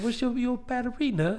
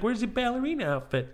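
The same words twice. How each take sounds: First: Put-on high little kid with a British accent. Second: Put-on high, curious child's question; innocent little kid. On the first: Little boy asking friend's mom, innocent British accent. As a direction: ask it as a small British boy. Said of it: "with a British accent". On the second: Little boy asking mom about her outfit, innocent kid voice. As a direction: ask it like a naive little boy. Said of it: "I'm so innocent at the time".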